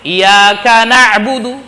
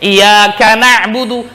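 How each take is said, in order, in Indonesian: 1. Bunyi y dalam iyyaka itu tunggal, dibaca pendek. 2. Bunyi y dalam iyyaka itu tunggal, dibaca pendek.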